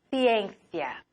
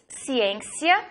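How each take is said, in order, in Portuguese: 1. O primeiro c soa como um th. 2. O primeiro c soa como um s. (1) "en Madrid" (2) "Podemos pronunciar la C como la S en portugués"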